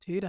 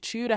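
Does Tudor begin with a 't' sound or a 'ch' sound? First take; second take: t; ch. First: The word begins with a plain t sound. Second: The word begins with a ch sound. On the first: "the T U sound is pronounced as just T U" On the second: "the T U becomes a ch"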